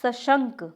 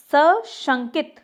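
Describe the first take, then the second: First: सशंक ending on "nk"; correct form. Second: सशंकित drawn out with "-it" ending; incorrect form. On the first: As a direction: say सशंक as "sa-shank". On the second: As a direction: say सशंकित slowly as "sa-shankit". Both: Shown as a demonstration. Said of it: "और होता क्या है?".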